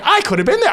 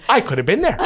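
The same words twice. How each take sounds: First: Squealed much higher, with a laugh; high laughing squeal of regret. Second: Exclaimed with a laugh; half-laughing at a missed chance; laughing lament; rising regret. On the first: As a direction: wail it high in mock despair. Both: Retold or imitated. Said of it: "I'm going".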